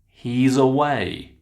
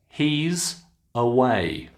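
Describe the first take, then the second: First: The final sound runs into the next word. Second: The two words are said separately.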